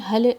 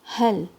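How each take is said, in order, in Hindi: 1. अंतिम L में गूंज वाला उछाल है। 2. अंतिम L चिकना है, इसमें कोई गूंज नहीं। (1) "हल लाम में कलकला नहीं देंगे, आपको ये हल नहीं बोलना है।" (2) "हल लाम को स्मूथली पढ़ना है तवस्सुत के साथ।"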